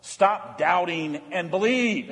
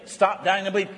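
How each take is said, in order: First: Slow, weighty command; slow and deliberate. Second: Said in the usual way. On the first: Shown as a demonstration. Preacher to congregation, slow and deliberate. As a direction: lay each word down slowly. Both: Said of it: "And we can say that on Ash Wednesday".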